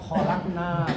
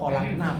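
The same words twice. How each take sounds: First: The final vowel is held long. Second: The final vowel is cut short. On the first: We made it. "kami membuat kholakna panjang" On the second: Many women made it. "kholakna pendek, itu banyak wanita membuat"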